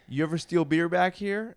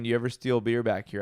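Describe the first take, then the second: First: Higher-pitched probing question, imitating a boss; captain's first, higher-pitched ask. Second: Captain's even-pitched second ask; repeated questioning. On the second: Retold or imitated. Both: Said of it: "I'm gonna ask you again".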